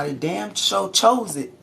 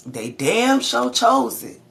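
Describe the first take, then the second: First: Slow, stressed on chose; first firm take of the point; emphatic. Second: Higher, louder, slow, punching chose; repeated with more force, nearly shouting; emphatic louder. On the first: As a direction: lean into chose firmly. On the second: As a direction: hammer it home harder. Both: Real, not acted. Preaching about free will.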